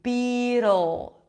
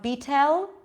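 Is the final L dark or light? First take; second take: dark; light. First: The final L is dark, almost like an O. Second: The final L is light, tongue tip up. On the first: The speaker calls it right. "you pull it in for the dark L" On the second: The speaker calls it wrong. "It's not a light, light L"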